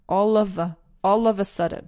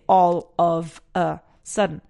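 First: The words are linked together into one flow. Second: Each word is said separately, without linking. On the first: The speaker calls it right. "it's a great opportunity to link them together" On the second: The speaker calls it wrong. "I don't say all of a sudden"

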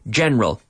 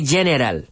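First: The word is said with only two syllables. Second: The word is said with three full syllables. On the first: The speaker calls it right. "Two-syllable word" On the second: The speaker calls it wrong. "We don't say general"

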